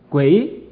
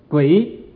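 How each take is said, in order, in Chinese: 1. 这个字读 gui 音。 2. 这个字读 gui 音。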